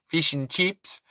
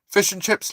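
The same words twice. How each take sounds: First: It is said in an Australian accent. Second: It is said in a British accent.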